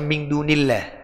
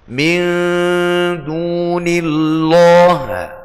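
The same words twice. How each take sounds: First: The L sound is thin and light. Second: The L sound is thick and heavy. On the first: The speaker calls it right. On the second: The speaker calls it wrong. "Itu lahnul khafi"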